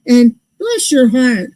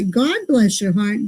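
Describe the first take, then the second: First: "bless your heart" with stress on "bless", slow and falling; "bless" hit and drawn out slowly, snide. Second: "God bless your heart", softer and slower with stress on "God"; "God" stressed, softer, sincere. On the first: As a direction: lean on "bless" slowly, as the insult. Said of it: "Now that's bad". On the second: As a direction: lean on "God" gently, as the kind blessing. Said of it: "that's good". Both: Shown as a demonstration.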